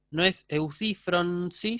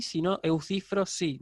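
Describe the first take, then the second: First: "eucifronsi" said slowly with the n kept before si, as the mistaken form; teacher slowly sounds out the wrong "eucifronsi" to reject it; wrong form spelled out. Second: "eucifrosi" said with the n dropped, o straight into si; teacher gives the right "eucifrosi" after the wrong one; correct form. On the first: Teacher to students, slowly sounding out the wrong form. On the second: Teacher to students, plainly giving the correct form. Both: Shown as a demonstration.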